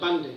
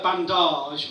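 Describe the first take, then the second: First: The stress is on the first syllable. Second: The stress is on the last syllable. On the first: The speaker calls it right. "and a bandage" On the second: The speaker calls it wrong. "it's not a bandage"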